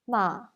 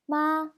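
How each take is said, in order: First: It is the Tianjin dialect first tone. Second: It is the Standard Chinese first tone.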